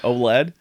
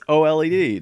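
First: It is spoken as a single blended word. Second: The letters L, E, D are spoken separately. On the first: The speaker calls it wrong. "not OLED" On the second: The speaker calls it right. "I'm saying OLED because it's an LED"

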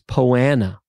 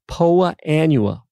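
First: The two words are merged into one short word. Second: The two words are said fully and separately. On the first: This is how most people say it. The speaker calls it wrong. "everyone says poana" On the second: This is the proper way to say it. The speaker calls it right. "that's a proper pronunciation"

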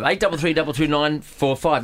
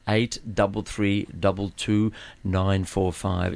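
First: The number is said at normal speed. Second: The number is said slowly.

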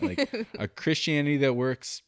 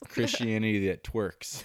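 First: The last word clearly sounds like works. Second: The t runs into the last word, making twerks. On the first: "I couldn't even say it right" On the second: "it kept kind of sounding like"

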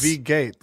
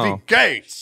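First: The phrase is said at normal volume. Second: The phrase is shouted loudly.

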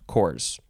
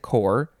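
First: The word ends with an S sound. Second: The word ends without an S sound. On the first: It refers to more than one unit. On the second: It refers to one unit.

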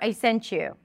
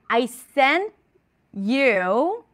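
First: The words 'sent' and 'you' run together. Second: The words 'sent' and 'you' are said separately.

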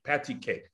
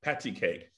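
The two takes are said the same way.

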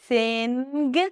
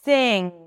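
First: A hard 'g' is released after the 'ng'. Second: The word ends in 'ng' with no 'g'. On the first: The speaker calls it wrong. "we don't pronounce the G sound" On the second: The speaker calls it right. "it's sing"

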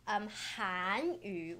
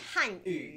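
First: The first syllable has a rising tone. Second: The first syllable does not have a rising tone. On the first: It means the Korean language. "which is second, third tone, that is Korean" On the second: It means the Chinese language. "Chinese language is"

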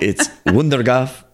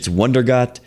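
First: The name is said with a Dutch accent. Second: The name is said with English pronunciation.

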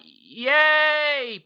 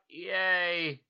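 First: It is said with excitement. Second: It is said flatly, without enthusiasm.

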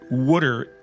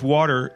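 First: The word sounds like wooder, with an oo vowel. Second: The word sounds like standard American water.

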